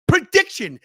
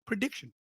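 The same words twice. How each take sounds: First: High, loud, falling at the end; loud announcement. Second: Quiet, questioning "prediction"; soft lead-in. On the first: Host launching the prediction segment, loud announcer delivery. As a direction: announce it big, like a segment title. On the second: Host teasing one last thing before they go, soft. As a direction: softly float the word, rising at the end. Announcing a segment, said two ways. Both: Shown as a demonstration.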